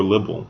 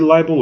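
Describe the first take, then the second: First: "libel" with a short I, LIB-ul; first vowel of "libel" as in "bib". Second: "libel" with a long I, LIE-bul; first vowel of "libel" as in "eye". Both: Shown as a demonstration. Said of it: "is it libel or libel".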